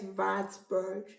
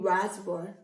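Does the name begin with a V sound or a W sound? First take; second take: V sound; W sound. First: The name begins with a V sound. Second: The name begins with a W sound. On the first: This is the German way of saying it. "but in German it's Wartburg" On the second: This is the English way of saying it. "if I should pronounce the stuff in English, I'll be saying Wartburg"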